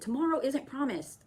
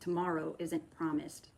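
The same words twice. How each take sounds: First: The phrase is yelled loudly. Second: The phrase is said in a calm voice. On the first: "But I yelled it" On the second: "in a more calm voice"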